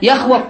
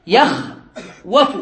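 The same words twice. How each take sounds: First: Said in the usual way. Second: يخوف drawn out slowly, rising at the end; teacher sounding out يخوف slowly; slow demo. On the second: Shown as a demonstration. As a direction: stretch يخوف so they hear the waw. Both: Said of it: "هنا قال في الحاشية".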